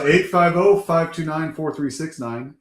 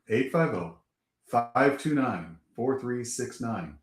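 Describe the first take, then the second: First: The number is said quickly. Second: The number is said slowly.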